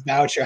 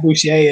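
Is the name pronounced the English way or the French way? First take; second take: English; French. First: The name is given an English pronunciation. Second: The name is given a French pronunciation. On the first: The speaker calls it right. "it is Boucher" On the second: The speaker calls it wrong. "He does not go by the French pronunciation. It's not Boucher"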